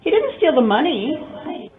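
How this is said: The stress falls on money. He stole something else instead.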